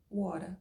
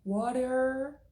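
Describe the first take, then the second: First: WATER ending in an open A, no R; New York-style WATER without the R; dropped final R. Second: WATER with a long, strong final R; higher-pitched WATER, pulling the closing R; pronounced final R. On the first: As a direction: drop the R at the end of WATER. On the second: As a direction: Californian WATER, R fully sounded. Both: Shown as a demonstration. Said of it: "Percebe a diferença do R?".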